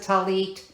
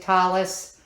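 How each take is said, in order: First: The word ends with a t sound. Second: The word ends with an s sound. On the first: This is how the speaker's community says it now. "we pronounce it talit" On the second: This is how it was said in earlier times. "Back in the day, they pronounced it talis"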